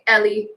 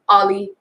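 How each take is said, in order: First: The first vowel sounds like the vowel in 'bed'. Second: The first vowel sounds like the vowel in 'hot'. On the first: "a lot of people will say Ellie" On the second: "or Ollie"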